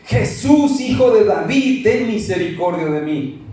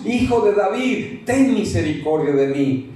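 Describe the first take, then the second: First: Crying out louder. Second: Pleading call, less force; first plea. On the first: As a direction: call out with more force, begging. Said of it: "Con más fuerza". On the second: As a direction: call out once, holding back a little. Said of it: "Él levantó la voz". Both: Acted.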